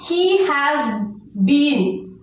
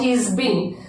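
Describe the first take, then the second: First: The word 'has' is said in full. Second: The word 'has' is contracted, said fast.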